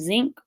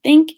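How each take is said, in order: First: The word begins with a z sound. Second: The word begins with a th sound.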